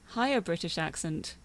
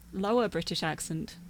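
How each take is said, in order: First: British accent in a higher register; higher-register British delivery. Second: British accent in a lower register; lower-register British delivery. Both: Shown as a demonstration.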